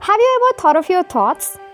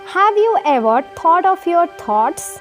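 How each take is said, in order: First: It is said at a normal pace. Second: It is said slowly.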